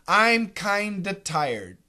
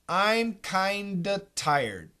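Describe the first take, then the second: First: The V is dropped, giving kinda with a D. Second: The V is dropped, giving kinda with a D.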